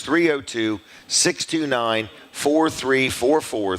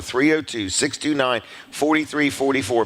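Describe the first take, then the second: First: Slow, measured digits; each digit drawn out for note-takers; slow dictation. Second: Said in the usual way. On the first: Real, not acted. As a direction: spell out the number unhurriedly. Dictating second phone number.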